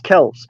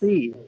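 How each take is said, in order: First: The name ends with an 's' sound. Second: The name ends with an 'ee' vowel. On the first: The speaker calls it right. "It's just Kelce" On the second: The speaker calls it wrong. "There's no"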